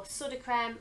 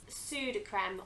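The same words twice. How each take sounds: First: "Sudocrem" with a short first vowel, SUD-oh-krem; "Sudocrem" opening like "sud"; alternative pronunciation. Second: "Sudocrem" with a long first vowel, SOO-doh-krem; "Sudocrem" opening like "sue"; one pronunciation. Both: Shown as a demonstration. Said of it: "or however you like to say it".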